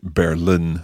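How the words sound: The name is said with an English pronunciation. "as opposed to Berlin, as we would say in English"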